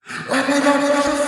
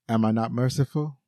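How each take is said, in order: First: The line is screamed loudly. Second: The line is said at a normal volume.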